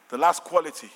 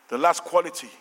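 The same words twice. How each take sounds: The two takes are said the same way.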